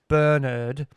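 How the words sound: The name is said in a British accent.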